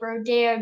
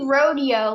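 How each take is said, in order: First: Rodeo is said like Rodeo Drive. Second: Rodeo is said the ordinary way. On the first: The speaker calls it wrong. "why are they pronouncing it rodeo like Rodeo Drive?" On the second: The speaker calls it right. "it should be rodeo"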